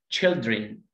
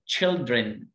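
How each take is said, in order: Both takes have the same delivery.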